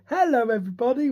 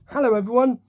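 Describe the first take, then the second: First: It is said in a children's presenter voice. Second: It is said in his normal voice.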